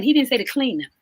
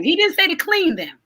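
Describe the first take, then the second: First: Said in the usual way. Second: Didn't hit higher and hard, falling after; stress on didn't. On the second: Shown as a demonstration. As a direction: lean on didn't to drive the point home.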